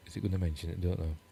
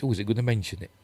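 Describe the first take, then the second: First: Softer echo of the question just asked; quiet aside to self. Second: Said in the usual way. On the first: Real, not acted. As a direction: repeat it much softer, under your breath. Repeats it to himself, much softer.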